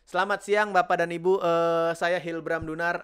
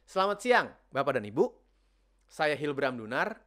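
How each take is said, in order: First: The pauses are filled with 'eh' sounds. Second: The pauses are short and silent. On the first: The speaker sounds panicked and unprepared. The speaker calls it wrong. "Banyak kan A-nya. Karena panik lah" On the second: The speaker sounds thoughtful and authoritative. The speaker calls it right. "Gue ilangin tuh bunyi-bunyian tadi ya"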